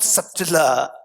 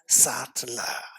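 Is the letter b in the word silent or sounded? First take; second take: sounded; silent. First: The b sound is pronounced in the word. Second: The b sound is left out of the word. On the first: The speaker calls it wrong. "It's not subtler" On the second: The speaker calls it right. "it should be pronounced as subtler"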